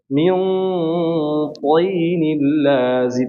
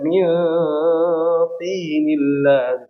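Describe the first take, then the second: First: The t sound is fully heavy and thick. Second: The t sound is plain and light. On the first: The speaker calls it right. "dibaca dengan tebal sempurna" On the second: The speaker calls it wrong. "nggak dibaca min tinil lazib"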